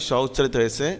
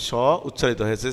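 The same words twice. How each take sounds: The two takes are said the same way.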